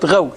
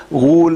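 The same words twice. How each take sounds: First: غول with an "aw" sound; fatha on غول. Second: Long rounded "oo" after the ghayn in غول; غول with a pure u sound; damma on غول. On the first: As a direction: pronounce غول as ghawl. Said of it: "بفتح الغين". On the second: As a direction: pronounce غول as ghool. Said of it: "غول بضم الغين". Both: Shown as a demonstration.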